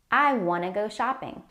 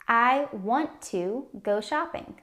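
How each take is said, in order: First: Want to is shortened to wanna. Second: Want to is said as two full words. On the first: "Wanna is a casual or shortened way to say want to" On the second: "I want to go shopping turns into"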